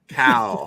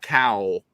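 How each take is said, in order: First: The vowel is a flat, short 'a' sound. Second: The vowel glides like 'ow', a Philadelphia sound. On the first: The speaker calls it right. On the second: The speaker calls it wrong. "not Cowl. ... us Philadelphians we can't say Cal very well"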